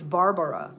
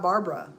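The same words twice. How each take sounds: First: The name is said with three syllables. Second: The name is said with two syllables. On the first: The speaker calls it right. "It's Barbara" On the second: The speaker calls it wrong. "my name is not B A R B R A"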